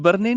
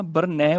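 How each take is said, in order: First: ਬਰਨੇ ending in "ay"; wrong close ending. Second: ਬਰਨੈ ending in open "ai". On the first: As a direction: say ਬਰਨੇ as "bar-nay". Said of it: "ਬਰਨੇ ਨਹੀਂ ਬੋਲਣਾ". (ਬਰਨੇ, ਅੰਤ ਵਿੱਚ ਲਾਂ) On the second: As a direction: say ਬਰਨੈ as "bar-nai". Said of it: "ਬਰਨੈ ਬੋਲਣਾ ਹੈ". (ਬਰਨੈ, ਅੰਤ ਵਿੱਚ ਦੁਲਾਵਾਂ) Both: Shown as a demonstration.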